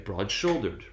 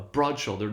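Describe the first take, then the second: First: The main stress falls on shouldered. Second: The main stress falls on broad. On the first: "shoulder uh, receives primary stress, whereas broad receives secondary stress" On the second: "the two one will revert to the one two stress pattern"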